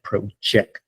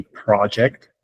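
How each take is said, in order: First: "project" with the stress on its second syllable, slowly; verb stress. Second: "project" with the stress on its first syllable; noun stress. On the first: Teacher contrasts a different word, stress on second syllable. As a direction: lean on JECT in "project", drawn out. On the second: Teacher gives another example word, stress on first syllable. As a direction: say "project" as a noun, weight on PRO. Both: Shown as a demonstration. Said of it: "where you put the accent".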